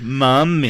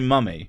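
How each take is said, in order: First: The first vowel is stretched out long. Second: The first vowel is short and clipped. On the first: The speaker calls it wrong. "I don't say mummy. I don't extend it" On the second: The speaker calls it right. "I say mummy"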